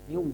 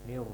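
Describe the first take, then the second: First: The r is rounded into a w sound. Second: The r is clearly trilled with vibration. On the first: The speaker calls it wrong. "ro-nya hilang getarannya" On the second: The speaker calls it right. "Nir getarkan"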